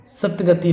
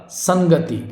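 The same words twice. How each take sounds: First: सतगति as "sat-gati"; sat for san. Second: संगति as "sang-gati"; sung, say संगति with a nasal before "ga". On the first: Teacher showing the mistake, सतगति with "sat". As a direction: say सतगति with a "t" before "ga". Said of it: "सतगति नहीं होगा". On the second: Sung, teacher correcting the word, संगति with "san". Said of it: "संगति होगा". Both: Shown as a demonstration.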